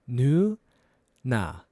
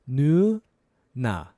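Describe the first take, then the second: Both takes have the same delivery.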